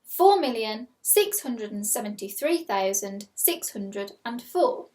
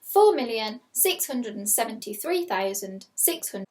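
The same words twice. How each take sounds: First: Slow, clear dictation of a number; slow school dictation. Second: Slow, careful repeat of the number; slow school dictation. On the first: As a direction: read it out slowly for pupils. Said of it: "Your second number is". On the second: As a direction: dictate it again slowly. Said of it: "I will read it again". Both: Shown as a demonstration.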